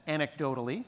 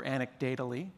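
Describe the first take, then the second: First: Said in the usual way. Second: "anecdotally" said as an-ec-DATE-a-lly; punning pronunciation. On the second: Shown as a demonstration. Speaker joking about measurement, "anecdotally" punned as an-ec-DATE-a-lly. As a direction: put "data" inside "anecdotally", as an-ec-DATE-a-lly.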